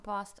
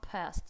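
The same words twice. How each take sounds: First: It is said with a British accent. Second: It is said with an American accent. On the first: The speaker calls it wrong. "в британском past" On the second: The speaker calls it right. "а past"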